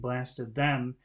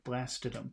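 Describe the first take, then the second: First: The two words are said separately, full 'them'. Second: The two words run together, 'them' reduced. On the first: "instead of saying blasted them" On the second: "It's like one word"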